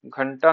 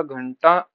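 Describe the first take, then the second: First: घंटा in the rejected spelling; rejected form. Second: Said in the usual way. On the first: Shown as a demonstration. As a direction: say घंटा evenly as the wrong example. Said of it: "नहीं होता". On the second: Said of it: "होता है".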